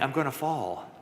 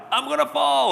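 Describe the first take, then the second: First: Said in the usual way. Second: Much higher, louder ghostly wail; spooky ghost call. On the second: Acted. Ghost in the chimney calls for the third time, high eerie wail.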